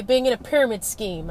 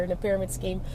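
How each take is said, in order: First: Said in the usual way. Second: Joking repeat, much softer. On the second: Retold or imitated. Jokingly repeating it to the school counselor, much softer. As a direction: tease it back under the breath. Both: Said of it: "I kinda jokingly said to her".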